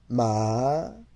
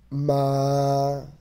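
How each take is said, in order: First: The syllable is said with the second tone. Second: The syllable is said with the first tone.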